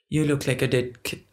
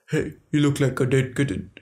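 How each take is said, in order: First: It is said in her own normal voice. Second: It is said in an imitated man's voice.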